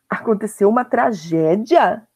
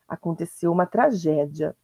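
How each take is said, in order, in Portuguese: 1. É dito com descrença. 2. É dito de forma fria e monótona. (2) "o ponto final está indicando frieza"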